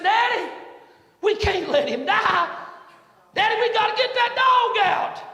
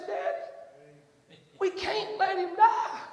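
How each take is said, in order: First: Put-on high, loud desperate plea from a boy; child's pleading cry. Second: Tearful plea. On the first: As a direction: beg your daddy, voice raised high. Son begs father to save dog. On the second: Retold or imitated. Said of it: "had big old tears pop up in his eyes".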